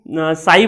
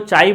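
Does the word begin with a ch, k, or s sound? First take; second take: s; ch. First: The word begins with an s sound. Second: The word begins with a ch sound. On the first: The speaker calls it right. "काई और साई दोनों ही सही है" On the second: The speaker calls it wrong. "चाई मत बोल देना"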